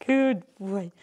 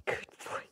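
First: Affectionate praise. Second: Whispered praise. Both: Real, not acted. Cooing to dog.

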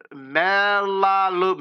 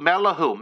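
First: "Melalu-" drawn out slowly, a halting wrong first try; tentative, slow stab at "Melalu-"; unsure first try at a name. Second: "Melahu" said as MEL-a-hoo with a falling close; "Melahu" said firmly as the correction; corrected name. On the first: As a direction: sound out "Melalu-" carefully and break off. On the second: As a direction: settle on "Melahu" as the fix. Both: Real, not acted. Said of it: "I'm saying your name right?".

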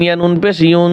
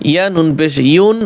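First: ইউন hummed through the nose with ghunna, the wrong way; nasal ghunna mistake. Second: ইউন said with a clear, unhummed নুন; clear izhar. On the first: Teacher shows students the wrong reading with ghunna humming. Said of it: "গুনগুন করে যদি আপনি গুণ্য করেন". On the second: Teacher gives students the correct clear izhar reading. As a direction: say ইউন cleanly with no nasal hum. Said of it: "হবে না, গুণ হবে". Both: Shown as a demonstration.

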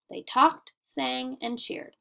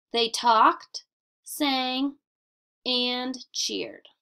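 First: Said in the usual way. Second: Short clear pauses after talked and sang; pausing at commas. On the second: Shown as a demonstration. Teacher reading example to students, pausing at commas. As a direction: let each comma breathe before the next verb. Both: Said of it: "A comma tells the reader when to pause".

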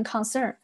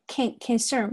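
First: "concern" with a full "kahn" first syllable; learner's mistake, open o in the con of "concern"; wrong full vowel. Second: "concern" with a reduced "kən" first syllable; "concern" with a short schwa in con; weak first syllable. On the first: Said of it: "不要读成concern". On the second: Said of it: "注意一下这里是a con". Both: Shown as a demonstration.

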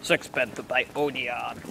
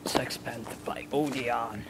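First: Slow, low voiced ad tagline; perfume ad voice. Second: Slow whispered sultry ad voice; perfume ad. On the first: Friend finishing a mock perfume advert, slow voiced tagline. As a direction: announce it like a fragrance brand. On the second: Pretend. Friend parodying a perfume advert, slow whisper. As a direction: breathe it like a perfume commercial.

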